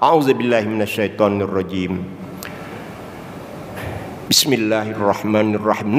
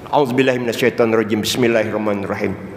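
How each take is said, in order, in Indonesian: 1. Ada jeda napas yang memisahkan kedua frasa. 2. Kedua frasa itu disambung tanpa napas. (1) "Seharusnya ada seling napas" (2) "itu disambung"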